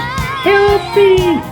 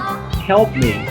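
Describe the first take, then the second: First: It is said in a very high-pitched voice. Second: It is said at a normal pitch.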